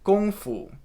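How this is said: It is said with a Mandarin Chinese pronunciation. The speaker calls it right. "The correct pronunciations are actually"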